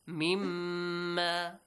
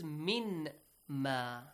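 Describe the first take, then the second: First: The n merges into one doubled m sound. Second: The n and m are said as separate sounds. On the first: "They are merged" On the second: "It is min ma"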